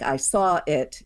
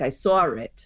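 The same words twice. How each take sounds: First: Said in the usual way. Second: "I saw it." with an R slipped in after saw, like sawr it; "I saw it." pronounced sawr it; intrusive R. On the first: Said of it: "if a sentence like". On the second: Shown as a demonstration. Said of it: "it might come out like".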